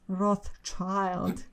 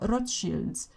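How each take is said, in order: First: The name is said with an English pronunciation. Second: The name is said with a German pronunciation. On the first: The speaker calls it wrong. "just sounds silly to me" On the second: The speaker calls it right. "I'm going to use the German pronunciation here"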